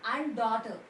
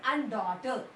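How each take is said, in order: No difference in how they are said.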